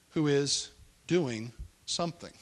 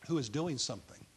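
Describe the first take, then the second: First: "who" stressed, each word drawn out slowly; slow emphasis on "who is doing something". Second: Said in the usual way. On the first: Shown as a demonstration. Preacher driving home that God acts, slow stress on "who". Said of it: "God is the one". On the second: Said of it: "God is the one who is doing something".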